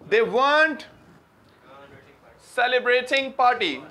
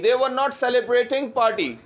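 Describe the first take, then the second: First: Were and not merge into one word. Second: Were and not are said as two words. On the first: The speaker calls it right. "weren't बोला जाता है भाई" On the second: The speaker calls it wrong. "वर नॉट को इतना बोला नहीं जाता"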